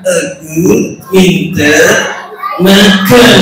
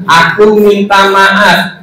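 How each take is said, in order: First: Slow, muffled puppet copying; laboured puppet attempt, word by word; puppet's botched echo. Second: Very slow "Aku minta maaf"; teacher's drawn-out "Aku minta maaf"; model apology. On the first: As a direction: drag it out in a lower puppet voice. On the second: Shown as a demonstration. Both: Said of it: "saya bilang".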